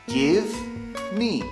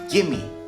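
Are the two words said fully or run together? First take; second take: fully; run together. First: The two words are said fully and separately. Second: The two words are joined into one reduced word. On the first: "it's a reduction of give me" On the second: "you join them together and they become gimme"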